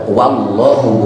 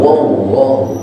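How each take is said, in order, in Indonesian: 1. Suku kata pertama memiliki vokal 'a' terbuka yang jelas. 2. Suku kata pertama memiliki vokal yang tidak terbuka, sudah berubah. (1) "waw dipatah dibaca wa" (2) "bukan wallahu"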